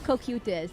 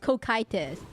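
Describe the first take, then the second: First: The middle vowel sounds like 'oo'. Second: The middle vowel sounds like 'ee'. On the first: The speaker calls it wrong. "It's not Kokutis" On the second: The speaker calls it right. "it's Kokitis"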